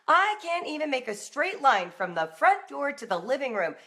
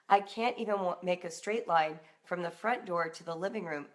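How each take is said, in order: First: It sounds irritated and angry. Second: It sounds overwhelmed and asking for help.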